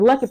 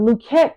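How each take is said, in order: First: The surname is said in a plain English way. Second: The surname is said in a French-style way. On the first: This is the form the speaker grew up with. "coming up, it was Luckett" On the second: This is the original form of the name. "so it's really pronounced Luquette"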